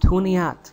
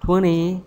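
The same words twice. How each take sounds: First: The ending has a short vowel, like eth. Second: The ending has a short vowel, like eth.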